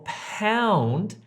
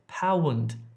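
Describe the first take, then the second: First: The vowel glides smoothly as one sound. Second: The vowel splits into two short separate sounds. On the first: The speaker calls it right. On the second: The speaker calls it wrong.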